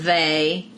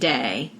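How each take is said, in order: First: The word begins with a soft 'th' sound. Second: The word begins with a hard 'd' sound. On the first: "the word they" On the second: "T H sound like a D"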